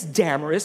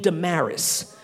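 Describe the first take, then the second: First: "Damaris" stressed on the first syllable; "Damaris" with a glamorous-style first syllable; rhymes with glamorous. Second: "Damaris" stressed on the second syllable; "Damaris" with the weight moved to MAR; different pronunciation. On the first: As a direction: say "Damaris" as DAM-uh-ris, like glamorous. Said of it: "It rhymes with glamorous". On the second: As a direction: say "Damaris" as duh-MARR-iss. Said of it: "pronounce it a different way". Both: Shown as a demonstration.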